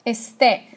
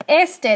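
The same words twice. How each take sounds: First: "Este" stressed on the final "te"; stress on last syllable. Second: "este" stressed on the opening "es"; stress on first syllable. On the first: Teacher modelling the irregular verb for class, "Este" with final-syllable stress. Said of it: "This one does not follow our rule". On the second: Teacher contrasting the word for east, "este" with first-syllable stress. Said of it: "It's not este, that means east". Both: Shown as a demonstration.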